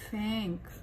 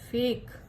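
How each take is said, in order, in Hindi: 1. स्वर k से पहले अनुनासिक है। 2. स्वर सादा है, इसमें नासिक ध्वनि नहीं है।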